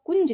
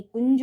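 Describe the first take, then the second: First: कुंज as a short "kunj"; wrong nasal spelling. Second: कुंज with a released "kun-ja"; correct word ending. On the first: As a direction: close कुंज quickly on the j. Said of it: "कुंज नहीं". (कुंज छोटा और बंद) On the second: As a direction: let go of the final j in कुंज. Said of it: "कुंज होगा". (कुंज का अंतिम ज खुला) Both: Shown as a demonstration.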